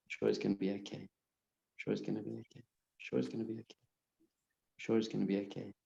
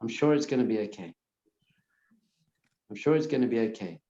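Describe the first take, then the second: First: Softer, near-whispered repetitions dying away; repeating it ever more softly; fading calming mantra. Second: Quick murmured reassurance to yourself; soothing inner mantra; calm self-reassurance. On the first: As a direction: let the mantra fade to almost nothing. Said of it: "Just calm your whole system down". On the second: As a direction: tell yourself it's fine, briskly. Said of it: "you just say to yourself". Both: Shown as a demonstration.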